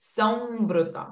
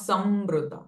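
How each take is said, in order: First: The nasal before v sounds like a nasal v. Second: The nasal before v sounds like a clear m. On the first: The speaker calls it right. "will change it to v" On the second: The speaker calls it wrong. "not samvrita"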